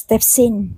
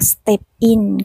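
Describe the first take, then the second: First: The final s links into the next word. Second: The two words are said separately. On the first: "ก็เป็น" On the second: "จาก"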